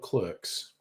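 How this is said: The vowel sounds like the one in 'her'. This is the American way. "they made it in America, they get to call it Clerks"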